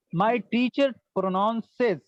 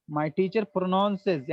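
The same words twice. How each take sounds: First: "My teacher pronounces" said very slowly, word by word; slow model phrase. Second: Said in the usual way. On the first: Shown as a demonstration. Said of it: "slow model, then normal repeat". ("My teacher pronounces" बहुत धीरे, शब्द-शब्द) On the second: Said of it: "normal repeat after slow model".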